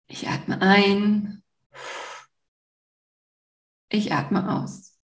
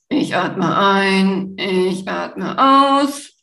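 First: It is said slowly, flowing with the breath. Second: It is said quickly, without flowing breath.

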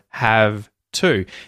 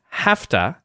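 First: The words stay apart with a voiced V. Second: The words join and the V becomes F. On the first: "instead of have to" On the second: "have to instead of have to"

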